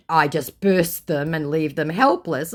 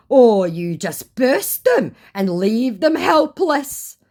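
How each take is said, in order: First: Said in the usual way. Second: Slow, higher, louder put-on scammer voice; mock scammer accusation. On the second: Scammer accusing her of leaving them helpless, slow mock reproach. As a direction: draw the accusation out, mockingly.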